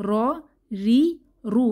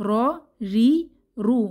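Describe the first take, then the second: No difference in how they are said.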